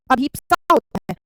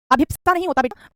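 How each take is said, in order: First: अभिप्सा said carefully as the right form; correct form. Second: अभिप्सा said as the wrong form, loud; wrong spelling said out. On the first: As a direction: give the right अभिप्सा firmly. (सही उच्चारण अभिप्सा) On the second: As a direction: stress the wrong अभिप्सा clearly. (गलत उच्चारण अभिप्सा, ज़ोर से) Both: Shown as a demonstration. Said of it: "अभिप्सा नहीं, अभिप्सा है".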